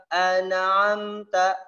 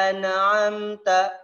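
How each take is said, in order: No difference in how they are said.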